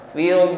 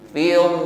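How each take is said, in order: The two takes are said the same way.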